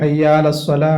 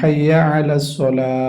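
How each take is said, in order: First: Hayya and ala merge into one word. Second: Ala starts separately with a throat consonant. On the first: The speaker calls it wrong. "ഹയ്യാലസ്വല ശരിയല്ല" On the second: The speaker calls it right. "അവിടെ പറയണത് ഹയ്യ അല"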